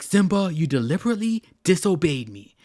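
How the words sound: It is said angrily, with strong emotion.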